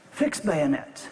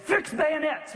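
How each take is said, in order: First: Said in the usual way. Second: High-pitched battle order, mock yell; yelled command. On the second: Commander repeats the order to his stunned men, yelled high. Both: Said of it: "And he yelled it".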